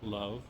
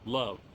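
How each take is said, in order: First: The word is said more quietly. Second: The word is said at full volume.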